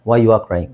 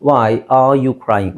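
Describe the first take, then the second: First: Said in the usual way. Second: Very slow, each word separated; emphatic model question. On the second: Shown as a demonstration. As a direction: give the corrected question slowly and deliberately. Teacher models the corrected question. (ನಿಧಾನವಾಗಿ, ಪದಪದವಾಗಿ ತಿದ್ದಿ ಹೇಳುವುದು)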